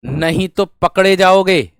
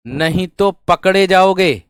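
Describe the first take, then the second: No difference in how they are said.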